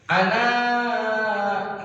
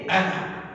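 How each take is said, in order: First: The final vowel is drawn out long. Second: The final vowel is cut short. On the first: "dibaca panjang" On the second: "Tapi di sini"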